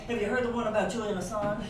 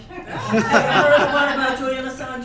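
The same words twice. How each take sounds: First: Said in the usual way. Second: Much louder, laughing joke-teller opener; laughing, loud cheerful retort to the eye-rollers; bright loud comeback. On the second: Shown as a demonstration. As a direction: boom it out like a punchline setup. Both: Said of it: "Please respond by saying".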